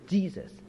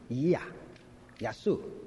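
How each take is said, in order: First: The name begins with a J sound. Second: The name begins with a vowel sound. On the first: This is the English form of the name. The speaker calls it wrong. "不是Jesus" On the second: This is the original Greek form of the name. The speaker calls it right. "有时候发成这个E 的音，而不是发成J 的音"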